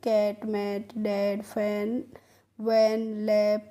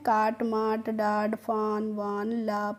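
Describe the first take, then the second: First: The vowel is a short flat 'ae' sound. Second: The vowel is a long open 'aa' sound. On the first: The speaker calls it right. "कैसे पढ़ेंगे" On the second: The speaker calls it wrong. "इस तरीके से नहीं पढ़ना है।"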